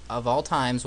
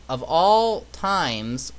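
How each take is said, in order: First: Said in the usual way. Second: "all" stretched slow and rising; drawn-out dramatic emphasis. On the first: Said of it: "repeated quickly flat". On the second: Shown as a demonstration. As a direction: drag out "Of all times" with a rise. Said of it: "repeated line, slowed".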